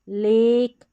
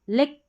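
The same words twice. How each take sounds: First: The vowel is a long 'ay' sound. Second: The vowel is a short 'e' sound. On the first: The speaker calls it right. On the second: The speaker calls it wrong.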